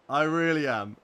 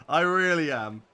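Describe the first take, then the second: No difference in how they are said.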